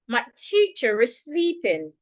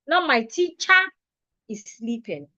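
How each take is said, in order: First: Teacher ends in a weak, closed schwa. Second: Teacher ends in a full, open vowel. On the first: The speaker calls it right. "making sure that your mouth is not opened when saying the sentence... makes the sentence better" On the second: The speaker calls it wrong.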